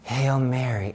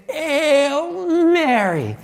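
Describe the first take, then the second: First: Softer, lower, as if only thought; retold silent prayer, kept under the voice; said inwardly. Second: High, very drawn-out strangled cry; strained breakthrough. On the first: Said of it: "I said in my head". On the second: Retold or imitated. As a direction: force the words out through a choked throat. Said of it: "finally was able to say".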